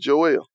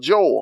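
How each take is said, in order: First: The name is said in a country accent. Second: The name is said in a standard accent. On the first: "I'm country, so it's Joel" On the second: "however you say it"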